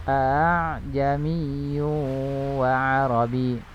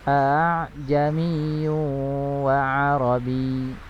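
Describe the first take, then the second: Both takes have the same delivery.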